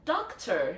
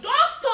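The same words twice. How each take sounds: First: It is said with a British accent. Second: It is shouted with a Nigerian accent.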